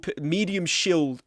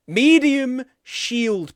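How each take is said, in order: First: Said in the usual way. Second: High, slow goofy voice; silly drawn-out voice. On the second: Pretend. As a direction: stretch it out like a joke chant. Repeating the phrase playfully.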